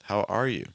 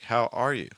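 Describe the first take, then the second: Both takes have the same delivery.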